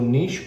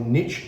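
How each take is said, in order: First: The word is said with a non-American pronunciation. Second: The word is said with an American pronunciation.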